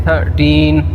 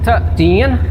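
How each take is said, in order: The two takes are said the same way.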